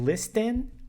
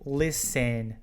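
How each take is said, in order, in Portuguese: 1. O T do meio é pronunciado. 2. O T do meio é mudo. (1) "Ao invés de listen" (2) "Esse T aqui, ele é mudo"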